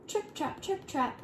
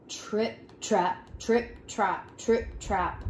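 First: High, soft little hoof taps; light trip-trap. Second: Slow, weighty hoof steps; heavy trip-trap. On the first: Smallest goat crosses the bridge, light high trip-trap. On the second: Heavy third goat crosses the bridge, weighty trip-trap. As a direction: plod each word out with heavy separate steps. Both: A narrator's reading.

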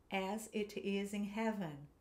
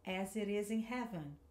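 First: Slow, each word distinct; teacher giving words one by one; slow separate words. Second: Smoother, words run together; teacher showing connected speech; linked words. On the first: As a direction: say each word apart, slowly. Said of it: "eu vou falando as frases". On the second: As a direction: join the words into one flow. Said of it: "vamos ligar um pouquinho mais essas palavras". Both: Shown as a demonstration.

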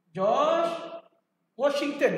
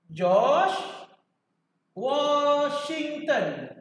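First: Said in the usual way. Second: Very slow, stretching out Washington; slow teaching drawl. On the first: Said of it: "ulang nama untuk murid". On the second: Shown as a demonstration. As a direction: stretch each syllable so students memorise it. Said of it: "guru ajar hafal nama". (sebutan perlahan, memanjangkan Washington)

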